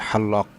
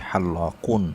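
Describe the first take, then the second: First: The word stops without the -un ending. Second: The word ends with the full -un ending. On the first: This is the everyday spoken form. "Normal কথ্য ভাষায় যেভাবে বলে হাল্লক, এভাবে বলে যদি কেউ থেমে যায়" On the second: This is the full grammatical form. "গ্রামাটিক্যালভাবে যদি বলি তাহলে হবে হাল্লাকুন"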